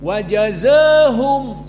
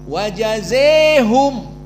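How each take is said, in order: First: The long vowel leans slightly toward e. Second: The long vowel is bent fully toward e. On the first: This is the Warsh reading. "bacaan at-taklil" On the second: This is the Kisai and Hamzah reading. "imalah Al-Kubra"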